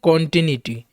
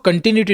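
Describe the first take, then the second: First: The first vowel is a full open 'o'. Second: The first vowel is short and reduced. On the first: The speaker calls it right. "इसको हम पढ़ेंगे कॉन्टिन्यूटी, क्योंकि ये noun है" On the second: The speaker calls it wrong. "हम इसको कंटिन्यूटी नहीं पढ़ेंगे"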